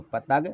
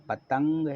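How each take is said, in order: First: पतंग mispronounced as pa-tag; पतंग ending in a bare g; wrong, nasal missing. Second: पतंग with a clear ng; with nasal. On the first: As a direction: say पतंग without the ng. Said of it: "ये गलत था". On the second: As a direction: say पतंग as pa-tang. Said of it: "ऊपर बिंदी लगा दी". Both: Shown as a demonstration.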